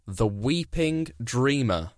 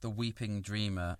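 First: Slow, weighty "The Weeping Dreamer" with stress on "Weeping"; "The Weeping Dreamer" drawn out like a film trailer; dramatic title read. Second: Soft, hushed "The Weeping Dreamer"; hushed echo. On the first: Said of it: "And then title number five". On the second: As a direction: breathe "The Weeping Dreamer" quietly in awe. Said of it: "that's got a sort of poetic". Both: Shown as a demonstration.

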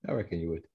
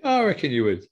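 First: Quieter repeat. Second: Said in the usual way. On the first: Real, not acted. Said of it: "repeat, quieter". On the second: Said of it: "said twice, second dropping".

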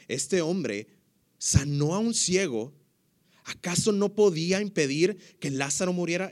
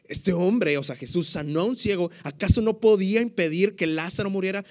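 First: Said in the usual way. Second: Louder, higher emphatic reread; onlookers' sceptical question, said louder and higher. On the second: Acted. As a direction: punch up the accusation. Repeating the onlookers' quote with emphasis.

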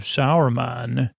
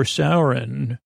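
First: "Sauron" said as SOW-er-man; Saruman pronunciation. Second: "Sauron" drawn out as SOW-ron; Sauron pronunciation. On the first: Villagers list the threats, "Sauron" said as SOW-er-man. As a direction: say "Sauron" in three syllables, ending in -man. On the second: Villagers offer the other name, "Sauron" slowly as SOW-ron. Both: Retold or imitated. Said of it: "Which one?".

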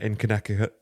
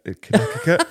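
First: Said in the usual way. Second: Connecticut said as Connekekut, higher; mispronounced Connecticut. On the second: Shown as a demonstration. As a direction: stumble over Connecticut, high and louder.

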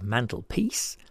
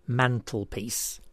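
First: Said in the usual way. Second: "mantelpiece" slowly, in separate parts; syllable by syllable. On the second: Shown as a demonstration. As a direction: draw out each part of "mantelpiece". Puzzle answer shown by syllables.

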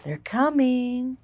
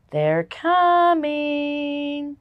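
First: Slow eerie warning; ominous movie voice. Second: Slow, drawn-out ominous announcement; ominous movie voice. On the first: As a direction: drag it out like an alien film trailer. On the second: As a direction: say it like a horror movie trailer. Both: Shown as a demonstration. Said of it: "Does it sound like an alien movie".

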